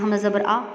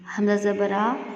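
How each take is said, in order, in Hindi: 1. स्वर झटके से छोटा कर दिया जाता है। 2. स्वर बराबर और बिना झटके के बोला जाता है। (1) "ऐसे नहीं पढ़ना कि इसमें झटका है" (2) "ऐसे पढ़ेंगे"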